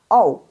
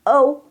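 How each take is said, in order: First: O with a round open "oh" start, falling; wrong ou. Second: O as ou from a relaxed uh, held high; correct ou. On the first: Teacher shows what not to read, round falling O. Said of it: "jangan dibaca O". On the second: Teacher corrects the mouth shape, high held ou. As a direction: glide O from uh to oo, level. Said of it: "mulutnya nggak O, tapi". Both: Shown as a demonstration.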